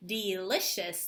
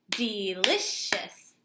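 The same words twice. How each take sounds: First: Delicious clapped again, softer, falling; softer clapped repeat. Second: Delicious clapped out slowly, DE-LI-CIOUS; clapped syllables. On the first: Teacher repeats the clapped word, softer. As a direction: repeat delicious slowly, quieter. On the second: Teacher claps delicious for her class, slow. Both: Shown as a demonstration. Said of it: "Let's clap the word delicious".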